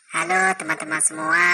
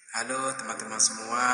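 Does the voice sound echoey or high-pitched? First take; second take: high-pitched; echoey. First: The voice is sped up and very high-pitched. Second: The voice has a strong cave-like echo. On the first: "ini suara chipmunk" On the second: "efek cave yang ini"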